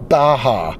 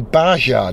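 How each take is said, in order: First: The j is pronounced the Iberian way. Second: The j is pronounced the English way. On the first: The speaker calls it right. "when they mean Baja" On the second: The speaker calls it wrong. "a lot of people say Baja"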